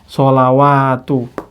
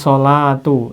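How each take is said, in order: First: A 'wa' syllable is pronounced in the middle. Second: No 'wa' syllable is pronounced in the middle. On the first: The speaker calls it wrong. "Bukan, ini bukan sholawat" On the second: The speaker calls it right. "Ini sholatu"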